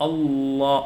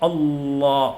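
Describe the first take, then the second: Both takes have the same delivery.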